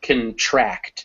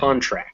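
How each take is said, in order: First: The stress is on the second syllable. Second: The stress is on the first syllable. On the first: It is used as a verb. "when it's the verb, the stress shifts to the end ... that o turns into a schwa" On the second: It is used as a noun. "when it's a noun, ... will take the stress on the first syllable"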